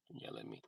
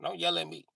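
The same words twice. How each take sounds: First: Whispered, fading out. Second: Quieter second take, calming down; softer repeat. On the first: Comedian telling the friend off, whispering the last repeat. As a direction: drop it to a whisper. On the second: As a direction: ease off on the repeat. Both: Retold or imitated. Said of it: "I said".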